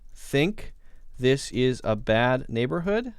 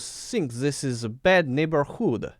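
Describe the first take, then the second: First: It is said in a plain English accent. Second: It is said in a put-on Russian accent.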